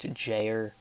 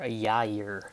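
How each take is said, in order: First: The name is said the English way. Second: The name is said the Spanish way. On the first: "in English, it's typically pronounced Jair" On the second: "in Spanish and Hebrew, it's pronounced uh, either Jair or Yair"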